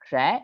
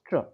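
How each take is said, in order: First: The syllable has a full vowel. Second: The syllable has a reduced vowel. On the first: The speaker calls it wrong. "this is not tra" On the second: The speaker calls it right. "it's tr. It comes close to tr"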